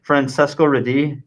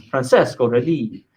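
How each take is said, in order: First: Said in the usual way. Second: Francesco Redi said with a hint of Italian flair; Italian-style name. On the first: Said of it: "we should have said". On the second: Shown as a demonstration. Teacher showing the class an Italian-style Francesco Redi. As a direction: give Francesco Redi a touch of Italian lilt. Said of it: "You gotta say it like that".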